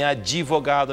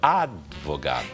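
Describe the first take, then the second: First: An extra vowel is inserted after the d. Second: The d joins the v with no vowel. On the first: The speaker calls it wrong. "Não é nem advogado" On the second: The speaker calls it right. "É o advogado"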